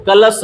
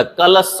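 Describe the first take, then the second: First: कलश said quickly as the wrong form; wrong sibilant. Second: कलश said slowly with stressed last sound; correct sibilant. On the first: Teacher showing the mistake, कलश quick and higher. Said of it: "कलश नहीं होता". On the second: Teacher correcting, कलश slow on its last sound. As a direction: lengthen the final sibilant of कलश. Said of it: "ये वाला स होता है". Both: Shown as a demonstration.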